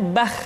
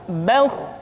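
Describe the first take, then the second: First: "bah" with a thin, open, light a; wrong thin vowel. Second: "bauh" with a full, rounded, heavy vowel; thick heavy vowel. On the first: Teacher showing the wrong thin sound. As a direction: say "bah" thin to show the error. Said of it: "tidak bah". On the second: Teacher showing the correct thick sound. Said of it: "diucapkan dengan suara yang tebal". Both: Shown as a demonstration.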